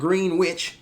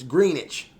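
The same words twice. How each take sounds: First: The W in the middle is pronounced. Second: The W in the middle is silent. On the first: The speaker calls it wrong. "it's not Greenwich" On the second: The speaker calls it right. "you kind of got a silent W in the word"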